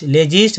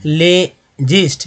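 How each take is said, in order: First: Said in the usual way. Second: "लेजिस्ट" slowly as ले, pause, gist; syllable by syllable. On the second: Shown as a demonstration. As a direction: split "लेजिस्ट" after le for learners. Teacher breaks a word into syllables.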